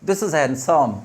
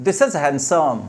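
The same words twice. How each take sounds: Both takes have the same delivery.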